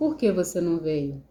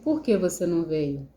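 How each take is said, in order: First: It is said in a calm tone. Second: The same.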